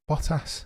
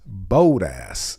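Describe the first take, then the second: First: The O is soft and light. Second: The O is heavy and drawn out. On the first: The speaker calls it right. "Soften the accentuation on the O" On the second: The speaker calls it wrong. "as egregious as bold ass"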